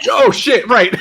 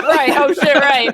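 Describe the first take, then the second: First: Laughing exclamation. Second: Loud laughing realization; laughing, in character. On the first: Shown as a demonstration. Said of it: "do this in character, where you're like". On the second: Acted. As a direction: blurt it out while laughing. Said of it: "do this in character".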